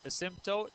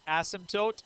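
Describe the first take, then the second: First: "asymptote" with the second syllable stressed, a-SIM-tote. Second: "asymptote" with the first syllable stressed, AS-im-tote. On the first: Teacher showing class the other pronunciation, second-syllable stress on "asymptote". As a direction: say "asymptote" with a light first vowel, weight on SIM. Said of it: "some people pronounce it asymptote". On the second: Teacher showing class one way some people say it, first-syllable stress on "asymptote". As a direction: say "asymptote" leaning hard on the opening AS. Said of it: "Some people pronounce it asymptote".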